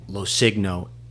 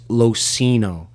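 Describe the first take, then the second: First: The G sound is pronounced in the name. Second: The G sound is silent in the name. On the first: The speaker calls it wrong. "everyone always messed up my last name" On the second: The speaker calls it right. "The G is silent"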